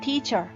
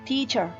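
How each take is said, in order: Both takes have the same delivery.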